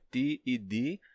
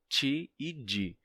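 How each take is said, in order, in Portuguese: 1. O T e o D são simples e duros. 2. O T e o D são suavizados como chee/jee. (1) "palatalização de"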